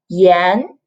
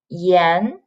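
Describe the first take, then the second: First: The syllable is said with the second tone. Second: The same.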